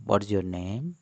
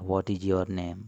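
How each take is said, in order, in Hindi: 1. 'your' शब्द एक शब्दांश में बोला जाता है। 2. 'your' शब्द एक शब्दांश में बोला जाता है।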